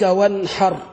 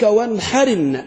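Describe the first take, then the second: First: The final r carries no vowel. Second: The final r takes an i-vowel linking onward. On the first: "الراشن عليها" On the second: "الراس أصبحت مكسورة"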